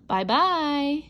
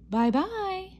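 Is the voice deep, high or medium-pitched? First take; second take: deep; medium-pitched. First: It is said in a big, gruff voice. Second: It is said in a middle-sized voice.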